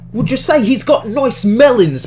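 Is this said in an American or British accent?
British. It is said in a put-on British accent. The speaker calls it right.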